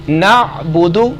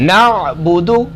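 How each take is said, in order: No difference in how they are said.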